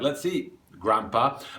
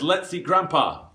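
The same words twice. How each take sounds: First: There is a pause before the last word. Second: It runs straight on with no pause. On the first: "if you do put the comma in" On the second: "without the comma"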